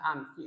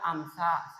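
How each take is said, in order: First: The word ends with an i vowel. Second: The word ends with an a vowel. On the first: The speaker calls it right. "Yang benar adalah amsi" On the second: The speaker calls it wrong. "tidak boleh dibaca amsa"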